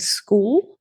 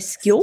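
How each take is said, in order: First: The vowel is a long 'oo' sound. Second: The vowel sounds like a short 'i'. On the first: "instead of saying school" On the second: "Queenslanders sometimes have a thing with their double O's ... they'll say skill"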